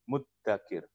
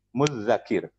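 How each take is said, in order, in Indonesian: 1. Terdengar bunyi d yang panjang dan ganda. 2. Terdengar bunyi mirip th yang panjang dan ganda. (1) "Pakainya dal" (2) "double zal"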